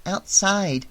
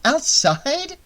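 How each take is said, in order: First: Put-on matter-of-fact child's answer; higher voice, falling at the end; little girl. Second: High, rising incredulous question; pitched way up, ending in a question; questioning echo. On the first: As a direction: answer simply, as a kid. Child answers Annie's question. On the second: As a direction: repeat it back in disbelief. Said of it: "Annie mused". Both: A narrator's reading.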